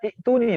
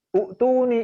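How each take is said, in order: First: The word begins with a short i vowel. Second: The word begins with a short u vowel. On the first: "yang ketiga baca itu nih" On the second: "U'tuni itu peringkat kedua salahnya"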